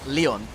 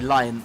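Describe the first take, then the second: First: It sounds like the name of the French city. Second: It sounds like the word for the animal. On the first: The speaker calls it wrong. "the same way that I was referring to, like, I would refer to Olympique Lyonnais" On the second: The speaker calls it right. "it's actually lion, like the animal"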